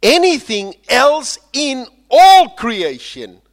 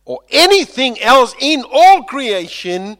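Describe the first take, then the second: First: Slow, loud, high cry; soaring proclamation. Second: High, loud cry; soaring proclamation. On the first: Preacher crying out Paul's promise to the congregation. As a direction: cry it out slowly to the rafters. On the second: Preacher crying out Paul's promise to the church. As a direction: lift it up to the rafters. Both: Acted. Climax of Romans quote.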